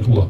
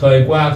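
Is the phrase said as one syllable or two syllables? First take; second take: one syllable; two syllables. First: It is said fast, merged into one syllable. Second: It is said slowly as two separate syllables. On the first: "đọc nhanh nó ra thủa" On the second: "thời qua thì bằng thủa"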